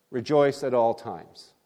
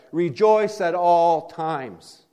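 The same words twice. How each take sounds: First: Said in the usual way. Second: Slow, weighty, higher delivery of "Rejoice at all times"; solemn proclamation. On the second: Acted. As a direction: proclaim "Rejoice" slowly and heavily, like an apostle's command. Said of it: "Paul said".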